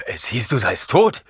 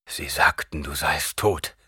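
First: Rasping, higher and louder; death rattle. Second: Lower, half-whispered repetition; quiet repeat. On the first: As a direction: rasp it out in shock. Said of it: "röchelte Gurney". (röchelnd, heiser ausgestoßen) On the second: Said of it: "wiederholte Gurney". (leise wiederholt) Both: Acted.

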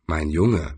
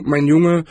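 First: Low, soft grumbled "mein Junge"; grumbling. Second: Higher, patronizing "mein Junge"; condescending wizard. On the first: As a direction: mutter "mein Junge" under your breath, low. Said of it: "brummte er". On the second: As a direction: talk down to him like a smug master. Wizard voiced in the story. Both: A narrator's reading.

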